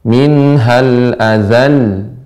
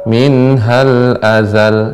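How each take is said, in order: First: The final syllable is marked with higher pitch. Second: The final syllable is said at ordinary pitch. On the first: The speaker calls it right. "maka kita naber" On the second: The speaker calls it wrong. "Sebelumnya biasa"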